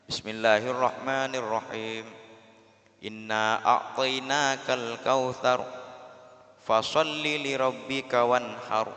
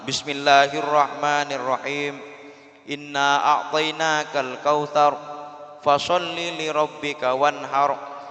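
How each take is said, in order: First: It is recited softly. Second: It is recited loudly.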